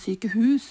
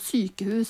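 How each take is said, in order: First: The stress is on the second syllable. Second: The stress is on the first syllable. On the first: The speaker calls it wrong. "og ikke sykehus" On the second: The speaker calls it right. "vi sier jo sykehus"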